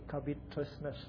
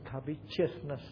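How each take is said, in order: First: The middle sound is a plain 't' sound. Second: The middle sound is 'ch', like 'covechousness'. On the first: The speaker calls it right. "I believe I'm correct here. Covetousness, not chiousness" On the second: The speaker calls it wrong. "Some pronounce it covetousness"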